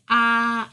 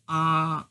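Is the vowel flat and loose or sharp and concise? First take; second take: sharp and concise; flat and loose. First: The vowel is sharp and concise. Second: The vowel is flat and loose. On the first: It sounds like a woman's way of speaking. The speaker calls it right. "A woman will have sharp, concise vowels" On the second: It sounds like a man's way of speaking. The speaker calls it wrong. "Instead of saying ah"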